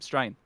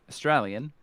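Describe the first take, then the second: First: The word is squeezed into one short syllable. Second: The word is said in full, all syllables clear. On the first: "So it's that condensed version" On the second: "Australians don't say Australian"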